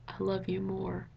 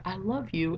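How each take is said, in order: First: Slow and tender; soft and slow, like the love line in the book. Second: Said in the usual way. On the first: Shown as a demonstration. Fan reciting the book's love line to viewers, slow and tender.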